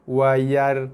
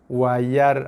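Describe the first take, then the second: No difference in how they are said.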